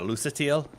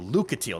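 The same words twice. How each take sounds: First: The name is not split as Luca plus teal. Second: The name sounds like Luca plus teal. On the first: The speaker calls it wrong. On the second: The speaker calls it right. "I think it's pronounced as Luca. Like Luca and Teal"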